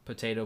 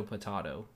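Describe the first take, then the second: First: Potato said "puh-TAY-toh"; long A as in "day" in potato. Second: Potato said "puh-TAH-toh"; broad A as in "father" in potato. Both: Shown as a demonstration. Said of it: "You say tomato or tomato?".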